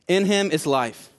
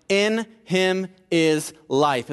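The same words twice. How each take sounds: First: Said in the usual way. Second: Each word drawn out slowly; slow emphasis. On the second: Shown as a demonstration. Preacher quoting John, slow and emphatic. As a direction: lay out In him is life very slowly, weight on In. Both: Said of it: "is what John said".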